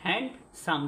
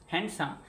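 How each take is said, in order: First: হ্যান্ডসাম in two separate beats, হ্যান্ড, সাম; two-syllable demo. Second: Said in the usual way. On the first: Shown as a demonstration. Teacher shows two syllables, হ্যান্ডসাম split in two. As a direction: leave a little gap before সাম in হ্যান্ডসাম. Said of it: "দুটো অক্ষর আছে না?". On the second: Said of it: "হ্যান্ড যোগ সাম".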